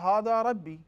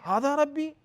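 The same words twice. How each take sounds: First: It is said as a plain statement. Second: It is said as a question. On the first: He declares that this is his Lord. The speaker calls it wrong. "it was a mistake by Prophet Ibrahim" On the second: He asks whether he should worship this. The speaker calls it right. "he said that as a question"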